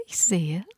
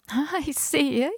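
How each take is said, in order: First: Said in the usual way. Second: High, slow, whispered fake interest; knowing whisper. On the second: A narrator's reading. Neighbour peers into bag.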